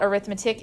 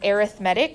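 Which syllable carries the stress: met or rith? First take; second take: rith; met. First: The stress is on the second syllable, rith. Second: The stress is on the third syllable, met. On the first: It names the subject of calculation. The speaker calls it wrong. "It's not arithmetic" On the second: It describes a type of sequence. The speaker calls it right. "it's pronounced arithmetic"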